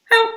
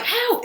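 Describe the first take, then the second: First: Said in the usual way. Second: Very high, theatrical cry of "Help."; "Help." as a shrill horror-film cry; dramatic help. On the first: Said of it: "It was just". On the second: Shown as a demonstration. Showing what the voice was not, high dramatic cry. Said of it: "it wasn't like".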